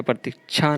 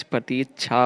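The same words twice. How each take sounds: First: प्रतीक्षा as "pratichhaa", short i; wrong form. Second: प्रतीक्षा as "prateechhaa", long ee; correct form. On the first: Teacher rejecting a spelling, प्रतीक्षा with short "ti". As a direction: keep the middle vowel of प्रतीक्षा short. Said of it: "प्रतीक्षा नहीं होता". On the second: Teacher giving the correction, प्रतीक्षा with long "tee". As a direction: lengthen the middle vowel of प्रतीक्षा. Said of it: "प्रतीक्षा होता है". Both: Shown as a demonstration.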